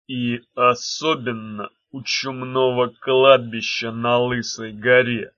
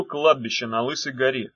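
First: Ominous stranger. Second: Said in the usual way. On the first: A narrator's reading. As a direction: speak slowly from the shadows. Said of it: "произнёс кто-то".

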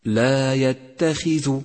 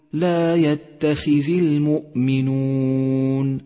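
First: يتخذ slow, with the ذ wrongly given u; wrong u vowel. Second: Sung, يتخذ slow, with the ذ given i; sung, intone لا يتخذ المؤمنون correctly; sung, correct recitation. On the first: Teacher demonstrating the common error. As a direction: show the mistake: ذ with u in يتخذ. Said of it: "أي أن تقول هكذا". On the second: Sung, teacher giving students the correct version. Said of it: "والصواب أن تقول". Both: Shown as a demonstration.

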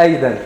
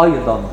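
First: أيضًا as a light "ey-den"; lower-pitched, thin-vowelled أيضًا; dal for dad. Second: أيضًا with heavy "AY-DAN" vowels and full ض; low, weighty أيضًا; emphatic alef. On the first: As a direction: say أيضًا with a plain د sound. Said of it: "هتنطق دال". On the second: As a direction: say أيضًا thick and backed. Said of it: "الألف ينطقها مضخمة". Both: Shown as a demonstration.

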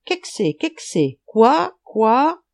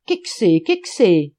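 First: Frog calls jumping high and loud on quoi; frog croaking. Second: Loud, puzzled call in dialect; shouted question. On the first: Frog watching Schultz sink in the river, croaking. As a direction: croak it in pairs, the last two rising sharply. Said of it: "Une grenouille le regarda et coassa". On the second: Man across the Moselle not understanding, shouted question. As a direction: holler it twice across the water. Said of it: "cria dans son patois de Trèves". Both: A narrator's reading.

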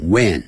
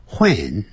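First: "when" starting on a plain w, wen; American "when". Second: "when" with breathy h before w, hwen; British "when". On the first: Teacher contrasts American English for students, "when" with silent h. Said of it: "但是美式英语念成when". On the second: Teacher shows British English to students, "when" as hwen. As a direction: puff an h into "when". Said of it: "英式英语念成". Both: Shown as a demonstration.

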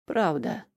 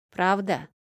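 First: Ниже и тише, «Правда» выдохнуто; выдохни «Правда» устало; на выдохе. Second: Певуче протянутое «Правда?» с подъёмом; пропой «Правда?» как хитрый мальчишка; напевно. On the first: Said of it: "выдохнул я". (усталый выдох) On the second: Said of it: "пропел мелкий проныра". (напевный детский вопрос) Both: Acted.

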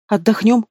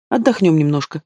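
First: Higher-pitched incredulous echo of "Отдохнём"; "Отдохнём" pitched up in mocking disbelief; scornful snort. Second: Said in the usual way. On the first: A narrator's reading. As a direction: throw "Отдохнём" back as a scoffing question. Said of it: "фыркнула я". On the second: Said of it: "продолжала увещевать Вася".

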